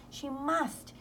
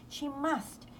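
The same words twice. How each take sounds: The two takes are said the same way.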